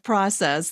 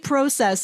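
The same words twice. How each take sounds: First: The word is said the American way. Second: The word is said the Canadian way. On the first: It hides where the speaker is from. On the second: It gives away that the speaker is from Canada.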